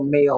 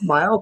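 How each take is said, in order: First: The name rhymes with 'sail'. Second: The name rhymes with 'while'. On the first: The speaker calls it wrong. "I used to call her April Mail all the time" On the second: The speaker calls it right. "me to pronounce it correctly"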